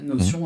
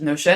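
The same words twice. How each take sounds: First: The word is pronounced the French way. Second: The word is pronounced the English way.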